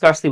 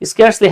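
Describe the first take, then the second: First: The first vowel sounds like 'ar' in car. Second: The first vowel sounds like 'air' in care. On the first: The speaker calls it wrong. "আমরা অনেকে স্কার্সলি বলি, আমি নিজেও অনেক সময় ভুলভাল বলে বলে ফেলি" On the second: The speaker calls it right. "আরেকটা হলো স্কেয়ার্সলি"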